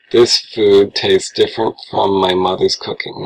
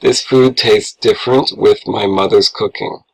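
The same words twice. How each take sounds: First: "from" set in place of "with"; "from my mother's cooking" spoken clearly; correct version. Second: Said in the usual way. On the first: Shown as a demonstration. Teacher reads out the corrected sentence. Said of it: "Now it's correct". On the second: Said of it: "what's the problem".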